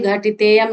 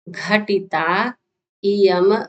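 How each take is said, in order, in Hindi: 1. दोनों शब्द एक ही ध्वनि में मिल जाते हैं। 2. दोनों शब्द अलग-अलग शब्दों की तरह बोले जाते हैं। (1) "घटितेयम नहीं पढ़िए" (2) "हम जैसा पढ़ा रहे हैं वैसा कह रहे हैं पढ़ने के लिए"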